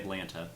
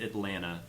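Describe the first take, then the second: First: It is said the way outsiders say it. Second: It is said the way locals say it. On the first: This is how people elsewhere say it. "but other people say Atlanta" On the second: This is how people in the city say it. "In in that city, they they pronounce it Atlanta"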